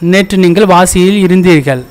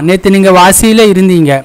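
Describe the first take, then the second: First: The verb ending is said in full. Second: The verb ending is shortened. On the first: This is the formal written form. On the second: This is the everyday spoken form.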